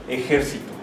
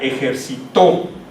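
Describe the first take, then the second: First: The stress is on the antepenultimate syllable. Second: The stress is on the last syllable. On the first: It refers to a group of soldiers. "el sonido fonético está en la antepenúltima sílaba" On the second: Someone exercised in the past. "el sonido fonético está en la última sílaba"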